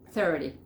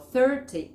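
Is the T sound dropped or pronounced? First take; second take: Dropped; Pronounced. First: The T sound is left out. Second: The T sound is pronounced clearly. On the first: "Le sacan esa T" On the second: "que sería la forma británica"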